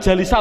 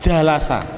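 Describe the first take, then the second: First: The vowel after the l is i. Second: The vowel after the l is a. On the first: The speaker calls it wrong. "Jawabnya adalah tidak boleh" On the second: The speaker calls it right. "duduk bahasa Arabnya adalah jalasa"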